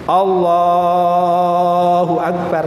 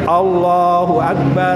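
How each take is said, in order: First: The vowel in Allah is drawn out very long. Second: The vowel in Allah is held only briefly. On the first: The speaker calls it wrong. "jangan terlalu panjang Allahnya itu ... salah" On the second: The speaker calls it right. "Mat tobi'i itu hanya dua harokat"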